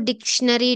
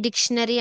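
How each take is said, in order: Both takes have the same delivery.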